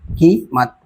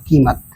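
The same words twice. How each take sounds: First: कीमत split slowly into की and मत; की, short pause, मत in कीमत; syllable by syllable. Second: Said in the usual way. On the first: Shown as a demonstration. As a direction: break कीमत after a long की. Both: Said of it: "की अलग बना, मत अलग बना".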